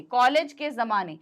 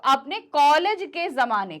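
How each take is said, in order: First: Said in the usual way. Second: college के जमाने said louder and slow; emphatic repeat of college के जमाने; stress on college के जमाने. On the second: Shown as a demonstration. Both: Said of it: "इस पर जोर देने के लिए".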